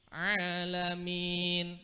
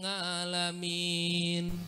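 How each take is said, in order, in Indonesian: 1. Kata itu dimulai dengan bunyi tenggorokan. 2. Kata itu dimulai dengan bunyi ng.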